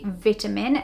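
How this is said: It is pronounced the British English way. "So in British English, we say vitamin"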